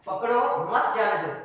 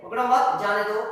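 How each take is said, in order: First: पकड़ो as a command, then मत जाने दो together; break after पकड़ो. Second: पकड़ो मत run together, then जाने दो apart; pause after मत. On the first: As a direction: set पकड़ो apart from मत जाने दो. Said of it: "अम्र है". (पकड़ो पर ठहराव, फिर मत जाने दो एक साथ) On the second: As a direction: move the break to after मत, before जाने दो. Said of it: "आगे नहीं कर दिया". (पकड़ो मत एक साथ, फिर ठहरकर जाने दो) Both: Shown as a demonstration.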